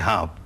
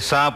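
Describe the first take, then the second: First: The word begins with an h sound. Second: The word begins with an s sound. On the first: This is how it is said further west. "वहां कहेंगे हाँप" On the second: This is how it is said in this region. "यहां कहेंगे सांप"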